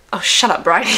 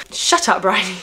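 First: Mock telling herself off; self-scolding. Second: Quick mock self-rebuke; self-scolding. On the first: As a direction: snap at yourself, half laughing. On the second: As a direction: tell yourself off in a breath. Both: Real, not acted. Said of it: "I literally tell myself to shut up".

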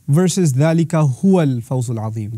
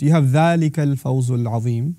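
First: Added "هُوَ" recited with weight; emphatic "هُوَ" in the recited verse; emphatic recitation. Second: Said in the usual way. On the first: Shown as a demonstration. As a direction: lean on the extra "هُوَ" in "ذَلِكَ هُوَ الْفَوْزُ الْعَظِيمُ". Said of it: "There's an additional huwa". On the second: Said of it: "really small shift".

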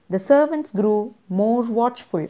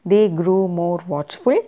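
First: Servants pressed and set apart; stress on servants. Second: Watchful said louder with a rise; watchful underlined out loud; stress on watchful. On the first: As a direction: lean on the word servants. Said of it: "underlined, that's an important point". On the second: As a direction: punch the word watchful. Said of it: "Underline those points". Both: Shown as a demonstration.

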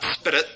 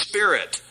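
First: "spit it" as one word for spirit, tapped "SPIDDIT"; wrong pronunciation. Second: Said in the usual way. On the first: Shown as a demonstration. Preacher correcting that guy's word, mispronounced "spit it". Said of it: "Something's wrong with that guy". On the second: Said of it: "It's spirit, not spit it".

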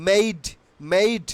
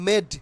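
First: "made" with a full ei glide; corrected pronunciation. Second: "made" with a short pure e; wrong pronunciation. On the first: ("made" টানা এই স্বরে, মেইড) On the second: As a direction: say "made" like med, no glide. ("made" ছোট এ দিয়ে, মেড) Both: Shown as a demonstration. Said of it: "not made".

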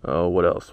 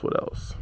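First: Said in the usual way. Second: Unvoiced whisper under breath; whispered to himself. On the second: Real, not acted. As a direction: whisper it to yourself. Repeats question under breath.

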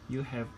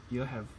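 The two takes are said the same way.

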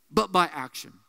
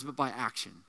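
First: Said in the usual way. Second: Hushed emphasis. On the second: Shown as a demonstration.

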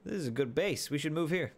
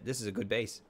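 First: Brighter, higher repeat; excited. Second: Said in the usual way. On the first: Real, not acted.

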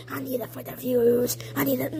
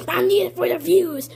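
First: Softly, pitched down low; low, soft repeat. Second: Said in the usual way. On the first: Pretend. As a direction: drop to a low, hushed voice. Same line repeated softer, lower.

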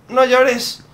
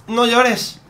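The two takes are said the same way.

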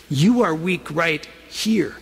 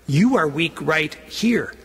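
The two takes are said the same way.

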